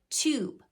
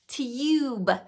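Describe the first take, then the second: First: The vowel sounds like a plain 'oo' after the t. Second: The vowel sounds like 'yoo' after the t. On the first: The speaker calls it right. "it can make the oo sound, like tube" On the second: The speaker calls it wrong. "They would try to make it that U sound"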